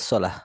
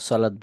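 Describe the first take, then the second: First: The word ends with a soft 'h' sound. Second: The word ends with a 't' sound. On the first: The speaker calls it right. "বলা উচিত ছিল সলাহ" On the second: The speaker calls it wrong. "সলাৎ বললে উচ্চারণটা ভুল হচ্ছে"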